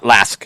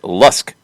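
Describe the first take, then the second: First: The name rhymes with ask. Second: The name rhymes with husk. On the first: The speaker calls it wrong. "not Lask" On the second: The speaker calls it right. "pronounced like Lusk"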